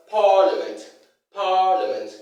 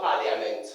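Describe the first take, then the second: First: Parliament as PAA-luh-ment, stressed first syllable; correct pronunciation. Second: Parliament as "pa-lia-ment"; mispronunciation. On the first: Teacher models how it is pronounced, correct pronunciation. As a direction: punch long PAA in "parliament", no "ia". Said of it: "It is pronounced as". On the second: Teacher shows what not to say, mispronunciation. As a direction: say "parliament" with an audible "ia". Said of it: "not parliament". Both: Shown as a demonstration.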